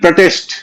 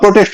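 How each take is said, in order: First: The first syllable is short and light. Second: The first syllable is long and heavy. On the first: It is used as a verb. "वहां pro हो जाएगा" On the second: It is used as a noun. "Noun है, वहां protest होगा"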